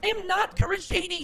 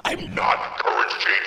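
First: Shouting high voice, clearly louder; loud girl voice. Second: Lower, loud real voice; real deep voice. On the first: Acted. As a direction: yell the denial in a high girl voice. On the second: Real, not acted. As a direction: drop the disguise and shout it. Voice changer off, deep shout.

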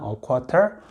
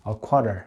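First: "A quarter," with a rising tune; "A quarter," said clearly, rising; model pronunciation, rising. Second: "a quarter." said clearly, falling; model pronunciation, falling. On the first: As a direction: repeat "A quarter," lifting at the end. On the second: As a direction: close with "a quarter." going down. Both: Shown as a demonstration. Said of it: "이렇게 얘기를 합니다".

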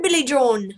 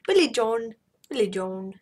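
First: Said in the usual way. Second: Mock Scottish lilt on Billy John; Scottish accent. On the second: Gamer trying a Scottish accent on Billy John. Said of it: "Scottish accent".

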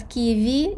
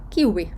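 First: Ківі with a Ukrainian v; Ukrainian reading. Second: Ківі with an English w, kiwi; foreign-style reading. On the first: Teacher reading a foreign word the Ukrainian way, ківі with v. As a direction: say ківі as two syllables, kee-vee, with v. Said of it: "як в українській мові". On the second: Teacher clarifying for puzzled listeners, ківі said as kiwi with w. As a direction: glide through the middle with w, not v. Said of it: "і зразу їм стає зрозуміліше". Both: Shown as a demonstration.

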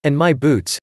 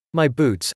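First: A mild wail over ruined boots; a light theatrical wail. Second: Said in the usual way. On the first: A narrator's reading. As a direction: lament the boots, a touch louder. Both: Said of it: "he wailed".

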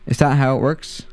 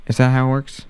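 The two takes are said the same way.

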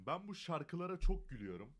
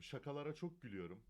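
First: "şarkılara" said by mistake instead of "şakalara"; slip of the tongue. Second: Said in the usual way. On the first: Real, not acted. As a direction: trip over "şarkılara" in place of "şakalara". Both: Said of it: "Ay, şarkı diyorum".

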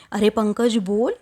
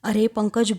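First: Narrator's mild mock yell of अरे Pankaj; shouting at Pankaj. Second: Said in the usual way. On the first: A narrator's reading. Wife snaps at silent husband Pankaj, mildly raised mock yell. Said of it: "Devika एवढ्या जोरात त्याच्यावर ओरडते".

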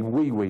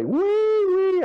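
First: Said in the usual way. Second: High, loud sing-song call across the block; mother calling out. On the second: Retold or imitated. Mother calls her boy in from playing war, high loud call. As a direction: call him home like a mother from the porch.

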